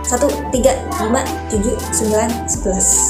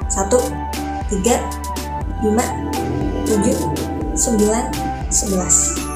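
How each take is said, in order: First: The numbers are counted at a fast rhythm. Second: The numbers are counted at a moderate rhythm. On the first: "sekarang yang lebih cepat ya" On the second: "sekarang lebih cepat dari tadi"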